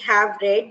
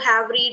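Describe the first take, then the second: First: The vowel in read is short, like red. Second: The vowel in read is long, like reed. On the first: The speaker calls it right. "It should be have read" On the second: The speaker calls it wrong. "So have read is wrong"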